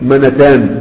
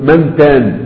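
First: The n is followed by a short vowel. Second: The n is followed by no vowel. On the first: The speaker calls it wrong. "ما تقولش منتان" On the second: The speaker calls it right. "والنون قبل تاء المثنى مسكنه"

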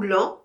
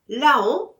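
First: The name is said in one syllable. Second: The name is said in two syllables. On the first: "on dit l'an" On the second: "on écrit la-on"

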